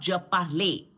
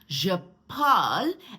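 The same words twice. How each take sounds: First: The final e of parle is pronounced. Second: The final e of parle is silent. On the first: The speaker calls it wrong. "and not je parle" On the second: The speaker calls it right. "E is not pronounced"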